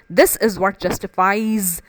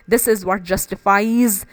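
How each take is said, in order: Both takes have the same delivery.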